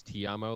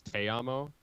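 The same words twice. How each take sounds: First: "ti amo" with ti said like "tee"; Italian ti amo. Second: "te amo" with te said like "tay"; Spanish te amo. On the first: Comparing Romance languages for friends, Italian "ti amo" as TEE-amo. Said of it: "like T I instead of T E". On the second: Comparing Romance languages for friends, Spanish "te amo" as TAY-amo. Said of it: "in Spanish is". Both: Shown as a demonstration.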